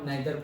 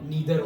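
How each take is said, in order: First: The first vowel sounds like 'eye'. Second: The first vowel sounds like 'ee'. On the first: This is how it used to be taught. "हमारे school time पे हम नाइदर pronounce करते थे" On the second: This is how it is said now. "अब नीदर हो गया है"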